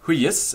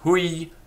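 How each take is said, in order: First: The middle y sound is single and short. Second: The middle y sound is doubled and held. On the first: The speaker calls it wrong. "it's not pronounced huyis" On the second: The speaker calls it right. "it's pronounced hui. Yes, the first syllable is heavy, and the y in the center is a double consonant"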